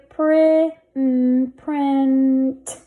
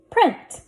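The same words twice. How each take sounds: First: Print stretched out, building from prin to the final t; blended slowly. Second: Said in the usual way. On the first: Shown as a demonstration. Teacher sounding out a word for readers, blended slowly. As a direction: hold the n in print before the t. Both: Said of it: "Let's read this".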